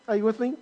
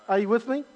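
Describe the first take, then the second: No difference in how they are said.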